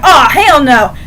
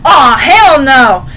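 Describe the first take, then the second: First: Louder indignant protest at normal pace; mock outrage. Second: Slow, louder drawn-out protest; mock outrage. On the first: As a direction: bark it like a fan who won't have it. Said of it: "literally going". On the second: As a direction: drag it out like a jealous fan. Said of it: "I went like".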